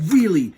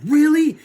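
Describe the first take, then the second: First: Loud, settled mock-heroic answer; firm confirmation. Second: High, loud questioning "Really?"; mock-amazed question; hopeful disbelief. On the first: Hero assuring the bad guy, firm confirmation. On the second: Bad guy asking if he can be good, amazed question. Asking back in acted exchange.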